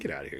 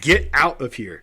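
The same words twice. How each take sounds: First: It sounds relaxed and playful. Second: It sounds harsh and serious. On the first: It is lighthearted disbelief. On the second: It is a real order to leave.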